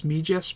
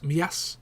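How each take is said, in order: First: Mijas with an English j, MEE-jass; English pronunciation. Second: Mias as mee-ASS, j not sounded; Spanish pronunciation. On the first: Contrasting English with Spanish, Mijas with an English j. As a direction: say Mijas with the j of jam. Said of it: "In English, you pronounce it as Mijas". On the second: Contrasting Spanish with English, Mias in the Spanish way. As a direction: glide through Mias with no j, mee-AHS. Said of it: "but in Spanish it's Mias". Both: Shown as a demonstration.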